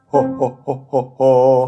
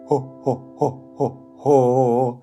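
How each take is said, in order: First: The syllables are said quickly. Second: The syllables are said slowly.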